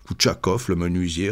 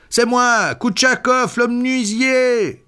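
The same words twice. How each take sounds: First: Said in the usual way. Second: High-pitched call, last words drawn out; crying out. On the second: A narrator's reading. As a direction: call out your name to be let in. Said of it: "cria-t-il". (cri aigu et insistant)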